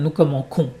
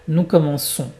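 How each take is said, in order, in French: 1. La consonne du milieu est un k dur. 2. La consonne du milieu est un s sifflant. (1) "Si je ne mets pas le double S comme ça, ça va faire" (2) "Pour garder ce son comme un serpent, comme un S"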